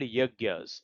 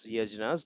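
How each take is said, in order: First: The middle cluster sounds like 'gy'. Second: The middle cluster sounds like 'jn'. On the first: The speaker calls it right. "these are called yagyas" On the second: The speaker calls it wrong. "it is not pronounced as yajnas"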